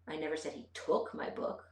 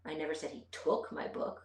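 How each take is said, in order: First: The word "took" carries the emphasis. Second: The word "took" carries the emphasis.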